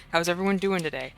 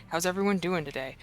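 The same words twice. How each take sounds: The two takes are said the same way.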